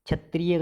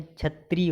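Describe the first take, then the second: First: क्षत्रिय ending in "tri-ye"; wrong ending. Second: क्षत्रिय ending on "tree"; long ee ending. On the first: Teacher showing the error, "triye" ending क्षत्रिय. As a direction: add a y syllable to क्षत्रिय. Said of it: "गलत है". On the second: Teacher correcting students, "tree" ending क्षत्रिय. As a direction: close क्षत्रिय on ee. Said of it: "होता है". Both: Shown as a demonstration.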